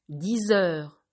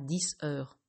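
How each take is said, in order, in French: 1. Un son Z relie le nombre au nom. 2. Aucun son Z ne relie le nombre au nom. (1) "vous entendrez le son Z" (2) "et pas"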